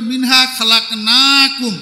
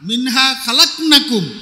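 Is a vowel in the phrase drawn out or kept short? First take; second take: drawn out; short. First: A vowel in the phrase is drawn out long. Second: The vowels are kept short, with no drawn-out sound. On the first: "এটা টানওয়ালা" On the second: "এটা টান ছাড়া"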